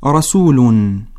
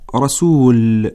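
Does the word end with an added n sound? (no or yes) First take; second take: yes; no. First: The word ends with an added -un sound. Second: The word ends on a plain l sound. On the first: The reading continues into the next word. "وهكذا تقرأ عند الوصل" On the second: The reading stops on this word. "أما عند الوقف تقرأ رسول"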